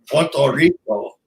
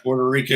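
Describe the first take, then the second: First: It is said with a Spanish-style pronunciation. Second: It is said with a plain English pronunciation. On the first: The speaker calls it right. "You have to say Puerto Rico" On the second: The speaker calls it wrong. "You just can't say Puerto Rico"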